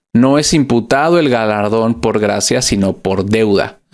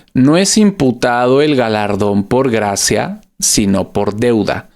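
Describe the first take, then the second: Both takes have the same delivery.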